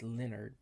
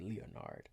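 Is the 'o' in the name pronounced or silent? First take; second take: silent; pronounced. First: The 'o' in the name is silent. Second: The 'o' in the name is pronounced. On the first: This is how other people say the name. "some people be like" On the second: This is how the speaker personally says the name. "I always end up pronouncing the O in Leonard"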